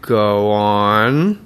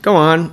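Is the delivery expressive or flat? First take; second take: expressive; flat. First: It is said with a varied, expressive pitch. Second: It is said flat, with no pitch movement. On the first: The speaker calls it wrong. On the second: The speaker calls it right.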